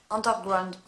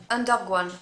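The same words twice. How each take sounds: First: Said in the usual way. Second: "Underground" fumbled, the r of "ground" dropped; tongue-tied slip. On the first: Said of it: "de me mélanger les pinceaux". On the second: Real, not acted. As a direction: trip over the end of "Underground". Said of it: "je n'arrête pas de bégayer".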